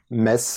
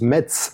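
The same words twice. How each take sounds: First: The word ends with a plain s sound. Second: The word ends with a ts sound. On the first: This is how the city's own people say it. The speaker calls it right. "in Metz, we are the only people pronouncing it Metz" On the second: This is how most people in the country say it. The speaker calls it wrong. "most French people pronounce it the German way"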